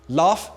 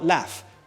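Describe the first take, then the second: First: It is said in the target British accent. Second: It is said in a different accent. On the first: The speaker calls it right. "if you want to steal Tom Holland's accent" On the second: The speaker calls it wrong.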